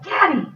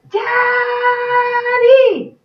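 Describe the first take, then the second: First: It is said very quietly. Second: It is yelled very loudly.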